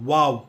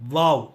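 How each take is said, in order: First: It begins with a rounded-lip w sound. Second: It begins with a lip-to-teeth v sound. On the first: "டபிள்யூ ஓ டபிள்யூ அப்படின்ற மாதிரியும் உச்சரிக்கலாம்" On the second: "வி ஏ டபிள்யூ"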